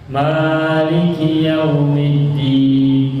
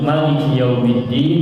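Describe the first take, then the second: First: The first vowel of Maliki is held long. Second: The first vowel of Maliki is kept short. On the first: "maknanya dibaca panjang" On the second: "membaca Maliki maknanya pendek"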